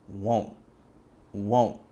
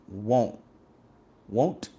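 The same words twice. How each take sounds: No difference in how they are said.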